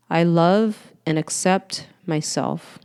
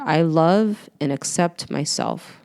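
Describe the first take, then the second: First: Even slower, unhurried self-affirmation; slow affirmation after breath. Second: Slow, tender self-affirmation. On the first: Coach repeating the affirmation after a breath, slower and tender. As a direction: let it sink in on the exhale. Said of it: "Breathe that in". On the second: Coach leading listeners in a self-love affirmation, slow and tender. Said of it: "Let's repeat it again together". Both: Shown as a demonstration.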